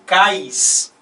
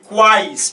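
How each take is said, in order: First: No w sound comes before the vowels. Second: A w sound comes before the vowels. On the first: It would be only a diphthong. "se eu falasse cais, né, e não quais" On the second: It is a triphthong with three vowel sounds. "eu pronuncio o, o a e o i"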